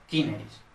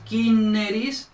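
First: Said in the usual way. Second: Kineris drawn out slowly, higher and louder; slow demonstration. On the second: Shown as a demonstration. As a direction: stretch kineris out loud and slow. Slow demo of Latin form. (kineris, pronunciado lento y enfático)

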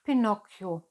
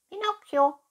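First: Lightly voiced fox in an everyday pitch; fox's good night. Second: Very high, loud cat echo; cat's good night. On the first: Fox wishes Pinocchio good night, lightly voiced. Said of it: "wünschte der Fuchs". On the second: Cat echoes the fox's good night, high-pitched. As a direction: squeak the name after the fox. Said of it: "wünschte die Katze". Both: A narrator's reading.

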